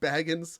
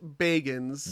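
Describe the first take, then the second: First: The first syllable sounds like 'bag'. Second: The first syllable sounds like 'beg'. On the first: This is probably the name's original pronunciation. "it probably was originally pronounced Baggins" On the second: This is how the man himself says his name. "he pronounces it Bagans, ... he is begging to see a ghost"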